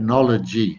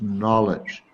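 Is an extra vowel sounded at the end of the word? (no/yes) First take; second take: yes; no. First: An extra vowel is sounded after the final consonant. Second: The word ends cleanly with no extra vowel. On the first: The speaker calls it wrong. "you said knowledge, and everybody does" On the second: The speaker calls it right. "it's actually a silent e. So it's just knowledge"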